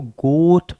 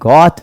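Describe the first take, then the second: First: The vowel sounds like the one in 'go'. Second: The vowel sounds like the one in 'hot'. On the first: The speaker calls it right. "इसको गोट पढ़ते हैं" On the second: The speaker calls it wrong. "ये गॉट नहीं"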